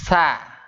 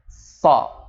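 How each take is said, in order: First: It is said thin, tongue not raised. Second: It is said thick, with the tongue raised. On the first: The speaker calls it wrong. "Kita baca tapi tidak diangkat, lidahnya nggak diangkat ke langit-langit" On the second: The speaker calls it right. "inilah yang harus mempunyai sifatnya istilah wajib diangkat"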